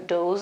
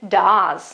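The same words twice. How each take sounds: First: The vowel is a long oo sound. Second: The vowel is a short uh sound. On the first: The speaker calls it wrong. "I don't pronounce it uh, do, does or does or I don't know what" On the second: The speaker calls it right. "but does. Okay, with an R"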